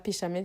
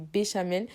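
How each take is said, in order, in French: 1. Le mot commence par un P sourd. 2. Le mot commence par un B sonore. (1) "ça se dit pas péchamel" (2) "mais ça se dit béchamel"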